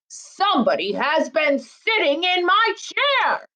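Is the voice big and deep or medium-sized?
big. It is said in a great big voice.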